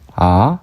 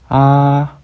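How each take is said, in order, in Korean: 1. 중간에서 높게 올라갑니다. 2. 높이가 변하지 않고 높게 유지됩니다. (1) "올라가는 성조" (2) "평평한 성조"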